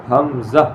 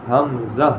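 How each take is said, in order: Both takes have the same delivery.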